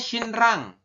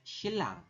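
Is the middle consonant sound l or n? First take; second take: n; l. First: The middle consonants are pronounced n then r. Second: The middle consonants are pronounced as double l. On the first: The speaker calls it wrong. "Tulisannya shinrang" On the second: The speaker calls it right. "tapi kita bacanya shilang"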